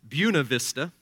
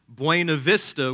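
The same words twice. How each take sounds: First: The name is said the way locals say it. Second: The name is said in a non-local way.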